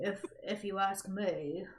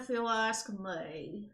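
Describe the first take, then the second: First: Lightly voiced British accent. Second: Slow, talking through clenched teeth; through gritted teeth. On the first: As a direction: try the title in a British accent. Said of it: "I'm trying to be British". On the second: Acted. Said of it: "you try talking through your teeth".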